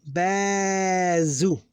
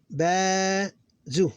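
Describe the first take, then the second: First: "Ba-zu" run together with long "Ba"; joined syllables. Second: "Ba-zu" with a break after long "Ba"; separated syllables. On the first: Teacher reading syllables, "Ba-zu" drawn out and connected. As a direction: stretch "Ba" straight into "zu". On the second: Teacher counting syllables, "Ba-zu" split by a pause. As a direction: hold "Ba", pause, short "zu". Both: Shown as a demonstration. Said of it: "So we have three syllables here".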